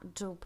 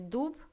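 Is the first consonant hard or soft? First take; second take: soft; hard. First: The first consonant is softened. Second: The first consonant is hard. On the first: The speaker calls it right. "а дуб, смягчаем" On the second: The speaker calls it wrong. "Не дуб"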